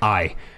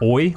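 First: The vowel sounds like 'eye'. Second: The vowel sounds like 'oy'. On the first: "you pick like a specific sound like isle, like I" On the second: "it turns out they say it more like oi"

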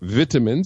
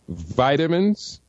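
First: It is said in a British way. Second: It is said in a non-British way.

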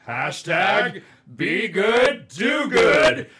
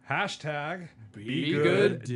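First: It is said with a little more excitement. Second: It is said calmly, without much drama.

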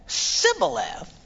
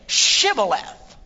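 First: The word begins with a plain 's' sound. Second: The word begins with a 'sh' sound. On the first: The speaker is from the dialect group. The speaker calls it wrong. "because he couldn't pronounce the word correctly" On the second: The speaker is not from the dialect group. The speaker calls it right. "then say Shibboleth"

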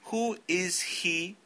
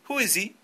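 First: Each word is said separately, not linked. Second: The words run together smoothly, linked. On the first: The speaker calls it wrong. "No digan, ... No suena natural" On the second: The speaker calls it right. "supongo que están haciendo el word linking"

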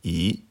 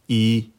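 First: The pitch rises from middle to high. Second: The pitch stays high and level. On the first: "Deuxième ton" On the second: "au premier ton, se prononce"

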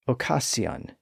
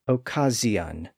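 First: The middle consonant is a hissing s sound. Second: The middle consonant is a buzzing z sound. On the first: This is the original older pronunciation. "pronounced like they were spelled" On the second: This is an intermediate stage of the change. "it became a Z sound"

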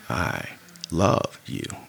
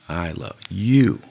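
First: The stress is on "love". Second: The stress is on "you".

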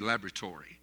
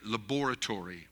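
First: It is said with an American pronunciation. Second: It is said with a British pronunciation.

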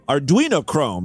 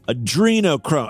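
First: The first word is pronounced like 'Arduino'. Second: The first word is pronounced like 'Adreno'. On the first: It names the actual electronics board. The speaker calls it right. "It's Arduino. Arduino Chrome in reality" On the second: It is made to sound like the conspiracy term. The speaker calls it wrong. "He even has to mispronounce the word to get this to fit right"

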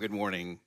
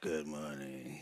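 First: It is said in a cheerful, upbeat way. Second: It is said in a tired, low-energy way.

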